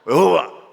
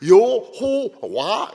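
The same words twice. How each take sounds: First: The word is articulated loosely with slack mouth shapes. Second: The word is articulated clearly with full mouth shapes. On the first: The speaker calls it wrong. "이렇게 하면 안 돼요" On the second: The speaker calls it right. "이렇게 해야 됩니다"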